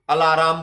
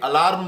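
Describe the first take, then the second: First: The word is said with three syllables. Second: The word is said with two syllables. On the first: This is how village folk say it. The speaker calls it wrong. "ठेठ भाषा में बोल देता हूं, अलाराम बोलते जिसको" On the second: This is the standard form. The speaker calls it right. "जबकि अलार्म होता है ना"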